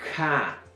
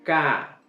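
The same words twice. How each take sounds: First: The k is followed by a puff of breath. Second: The k is plain, without breath or glottal catch. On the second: "con el simple"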